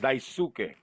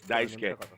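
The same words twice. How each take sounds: First: The u sound in the middle is pronounced. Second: The u sound in the middle is dropped. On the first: The speaker calls it wrong. "His name is actually spelled Daisuke" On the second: The speaker calls it right. "the correct pronunciation is Daisuke. The U somehow disappears"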